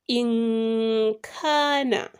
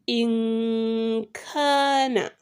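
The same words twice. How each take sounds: The two takes are said the same way.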